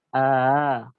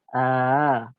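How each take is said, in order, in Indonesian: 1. Hamzah kedua dilunakkan, berada di antara hentian dan vokal. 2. Hamzah kedua dilunakkan, berada di antara hentian dan vokal.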